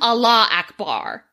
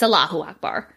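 First: Allah runs straight into Akbar with no u. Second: A short u syllable follows Allah. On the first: The speaker calls it wrong. "it was written Allah Akbar" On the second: The speaker calls it right. "but it's Allahu Akbar"

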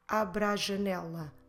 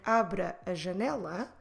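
First: The two 'a' sounds merge into one. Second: The two 'a' sounds are said separately. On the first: The speaker calls it right. "we will get abra janela, abra janela, because it flows better" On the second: The speaker calls it wrong. "instead of saying abra a janela"

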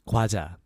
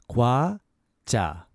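First: The word is said fast. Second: The word is said slowly.

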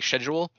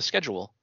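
First: Schedule is said with a British accent. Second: Schedule is said with an American accent.

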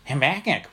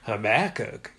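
First: The name is said with a nasal New England accent. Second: The name is said with a Texas accent. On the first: "which kind of was a whole weird nasally kind of thing" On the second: "it was kind of Habakkuk, you know, Texas"

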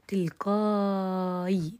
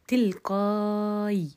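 First: The long vowel is held for six counts. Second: The long vowel is held for four counts.

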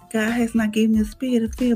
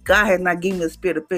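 First: It is said timidly and hesitantly. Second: It is said forcefully and confidently.

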